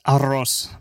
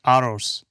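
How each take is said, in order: First: "arroz" with Spanish r and short o; Spanish pronunciation. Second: "arroz" with a light r and long o; Arabic pronunciation attempt. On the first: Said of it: "And then in Spanish". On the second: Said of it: "and then in Arab". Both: Shown as a demonstration.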